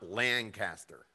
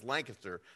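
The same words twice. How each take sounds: First: It uses the pronunciation outsiders give the name. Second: It uses the pronunciation locals give the name. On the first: The speaker is not from the area. The speaker calls it wrong. "not Lancaster" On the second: The speaker is from the area. The speaker calls it right. "the proper pronunciation for Lancaster is Lancaster"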